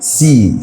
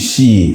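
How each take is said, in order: First: The letter starts with an 's' sound. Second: The letter starts with an 'sh' sound. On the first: The speaker calls it right. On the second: The speaker calls it wrong. "not she"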